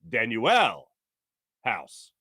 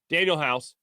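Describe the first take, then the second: First: The first name is said as Dan-U-L. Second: The first name sounds like the common name Daniel. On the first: "the pronunciation guide it gives you is Dan-U-L" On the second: "I've been saying Daniel House"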